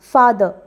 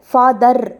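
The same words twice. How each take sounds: First: The final r is light and barely sounded. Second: The final r is strongly pressed and fully sounded. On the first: The speaker calls it right. "ஆங்கிலத்தில் ரொம்ப அழுத்தி பேசக்கூடாது" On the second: The speaker calls it wrong. "அதை ஃபாதர் அப்படின்னு சொல்லக்கூடாது"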